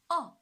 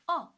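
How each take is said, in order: First: The pitch falls sharply from high to low. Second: The pitch falls sharply from high to low.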